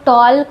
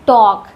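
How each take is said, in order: First: An L sound is heard before the K. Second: No L sound is heard before the K. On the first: The speaker calls it wrong. "बहुत सारे छोटे बच्चे इसको टॉल्क भी पढ़ते हैं" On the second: The speaker calls it right. "इसको पढ़ते हैं टॉक"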